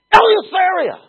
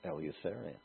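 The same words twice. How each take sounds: First: Eleutheria thrown out high and loud; shouted Eleutheria. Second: Said in the usual way. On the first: Shown as a demonstration. Preacher proclaiming Eleutheria to the congregation, full shout. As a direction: shout Eleutheria like a battle cry.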